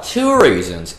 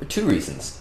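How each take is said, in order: First: It is said in an attempted Texan accent. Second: It is said in the speaker's ordinary accent. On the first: "because he was Texan" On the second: "he didn't quite say it like that because he was Texan"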